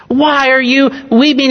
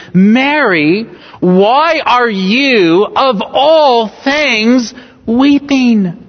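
First: Said in the usual way. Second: Slow, stretched and higher, lingering on of all things; astonished question. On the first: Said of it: "we don't naturally hear the emphasis". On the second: Shown as a demonstration. Preacher voicing the angels' astonished question to Mary. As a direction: ask it in wonder, as a gentle rebuke. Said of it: "It's almost like a gentle rebuke".

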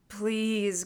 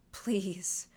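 First: Pained, aching please; agonized plea. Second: Unvoiced, breathy begging whisper; whispered plea. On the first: Acted. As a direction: plead as if giving up. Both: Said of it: "in an agonized way".

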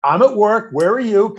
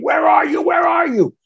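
First: High, sarcastic retort; retold snippy comeback, voice raised. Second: High-pitched mock scream; imitating a frantic wife yelling down the phone; retold screaming. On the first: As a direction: throw the question straight back at the caller. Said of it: "I was sarcastic". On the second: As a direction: cry it out, pitched way up. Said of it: "she starts screaming at me saying".

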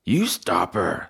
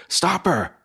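First: "You" pitched up, the rest falling away; stress on YOU. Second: High, urgent cry of alarm; alarmed shout. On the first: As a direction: throw the order back, leaning on "You". Joe throws the order back. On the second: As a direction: call out sharply to halt someone. Fox raises the alarm. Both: Acted.

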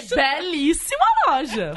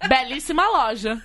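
First: Slow, stiff Belíssima loja; slow solemn compliment; deadpan tone. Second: Slow, flat compliment; slow, grave delivery of Belíssima loja; deadpan tone. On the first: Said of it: "Eu falei". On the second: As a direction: drag out Belíssima loja with no enthusiasm. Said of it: "Com esse tom". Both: Retold or imitated.

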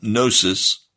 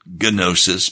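First: "Gnosis" with a silent g, NO-sis; silent g pronunciation. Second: "gnosis" with the g sounded, guh-NO-sis; hard g pronunciation. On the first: Preacher giving the Greek way, "Gnosis" with the g silent. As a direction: say "Gnosis" as NO-sis, no g sound at all. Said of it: "the G is silent". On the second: Preacher showing how some people pronounce it, "gnosis" with a hard g. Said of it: "Some people pronounce it gnosis". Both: Shown as a demonstration.

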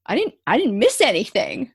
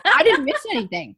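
First: A bit louder, indignant protest; defensive attitude. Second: High, loud, laughing send-up of her defensiveness; mock indignant. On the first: Retold or imitated. Defending her drawing to the counselor, mildly indignant. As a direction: insist you missed nothing, mildly offended. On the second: Mocking her own defensiveness to the host, laughing and exaggerated. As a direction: ham up the offended denial through a laugh. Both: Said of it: "This was my attitude".

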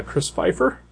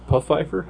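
First: Said in the usual way. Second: "Pfeiffer" with the P sounded as an extra puff; unsure "puh-FIFE-er", P audible; pronounced P'FEIFFER. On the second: Shown as a demonstration. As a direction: say the silent P in Pfeiffer, questioningly. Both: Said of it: "I don't know how to pronounce it".

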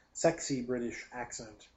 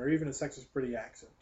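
First: "Sexy" stressed, said slowly as a correction. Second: Said in the usual way. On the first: Shown as a demonstration. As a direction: lean on "Sexy", slow and deliberate.

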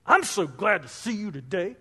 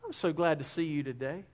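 First: Same words with a sour, insincere twist; sarcastic tone. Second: Hushed and pleasant, voice dropped low; soft sweet tone. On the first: Preacher contrasting a kind greeting with a snide one. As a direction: make the greeting sound fake and grudging. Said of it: "you notice it's totally different". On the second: Preacher showing the congregation a kind tone, soft and pleasant. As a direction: say it gently, glad and sincere. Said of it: "you can also use a certain tone". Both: Shown as a demonstration.

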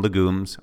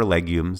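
First: LEGUMES with a plain "luh" start, luh-GOOMS; alternate pronunciation. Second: LEGUMES as LEG-yooms; alternate pronunciation. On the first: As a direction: say legumes as luh-GOOMS, stress on the second syllable. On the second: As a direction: say legumes with "leg" up front and a Y glide. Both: Shown as a demonstration. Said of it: "depending on how you want to say it".

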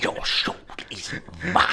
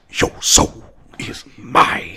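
First: Sinister whispered villain echo; cold hissing layered whisper. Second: Cold hissing slow whisper; slow, sinister whispered villain line; Shang Tsung. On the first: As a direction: hiss it like a sorcerer. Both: Retold or imitated. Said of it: "Shang Tsung".

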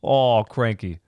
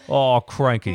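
First: Put-on another failed go at an Australian accent; bad Australian accent. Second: Laughing, bad Aussie "Oh, cranky"; bad Australian accent. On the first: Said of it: "Listening to you try an accent". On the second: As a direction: fumble a Crocodile Dundee line in Aussie. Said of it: "that's not it".

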